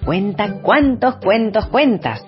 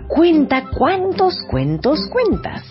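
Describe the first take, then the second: First: It is said at a normal, quick pace. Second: It is said slowly and carefully.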